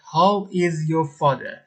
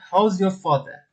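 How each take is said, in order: First: How and is are said as two separate words. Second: How and is are joined into one short syllable. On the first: "میخوایم بگیم پدرت چطوره how is your father" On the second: "یا به حالت مخفف و راحت تر"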